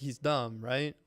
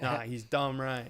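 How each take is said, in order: First: It is said as a genuine question, rising. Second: It is said as a confident statement, falling.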